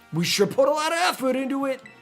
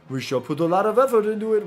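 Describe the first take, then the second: First: It is said in a put-on female character voice. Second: It is said in a put-on male character voice. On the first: The speaker calls it wrong. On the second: The speaker calls it right.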